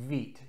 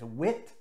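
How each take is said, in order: First: It starts with w and has a long ee vowel. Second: It starts with w and has a short i vowel. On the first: The speaker calls it right. "the word is pronounced wheat" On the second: The speaker calls it wrong. "often mispronounced as wit"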